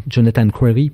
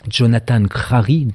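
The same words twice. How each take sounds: First: "Crary" retried with an English-style r, close to "Cwary"; clumsy English accent. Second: Crary said the French way, with a rolled French r in "Crary"; French pronunciation. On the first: Lecturer corrects himself on the author's name, clumsy English accent. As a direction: have a go at saying "Crary" the English way, a bit awkwardly. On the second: Lecturer first naming the American author, French pronunciation. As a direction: say "Jonathan Crary" slowly as a French name. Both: Shown as a demonstration. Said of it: "mon accent anglais est catastrophique".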